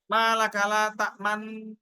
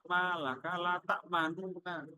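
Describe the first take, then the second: First: The two nun sounds merge into one doubled nun. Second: The two nun sounds are said as separate syllables. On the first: "ada malakala tak manna" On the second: "aslinya malakala tak manuna"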